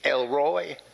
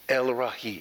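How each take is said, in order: First: The last part is one gliding syllable, like 'Roy'. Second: The last part is two syllables, 'ra' then 'ee'. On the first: This is a common anglicized reading of the name. The speaker calls it wrong. "You will hear preachers say El Roy. Sounds southern to me" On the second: This is closer to the original Hebrew. The speaker calls it right. "the Hebrew pronunciation is much closer to El Ra'i"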